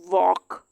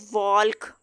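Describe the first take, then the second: First: No L sound is heard before the K. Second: An L sound is heard before the K. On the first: The speaker calls it right. "एल यहाँ पे भी silent हो जाएगा" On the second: The speaker calls it wrong. "अब हम इसको यूं नहीं पढ़ सकते"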